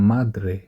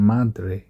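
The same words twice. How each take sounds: Both takes have the same delivery.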